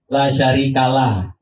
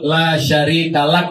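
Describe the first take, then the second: First: The phrase ends on an open vowel. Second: The phrase ends with a closing k sound. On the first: The speaker calls it wrong. "tapi hanya dibaca" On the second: The speaker calls it right. "yang harusnya ada kaf mati"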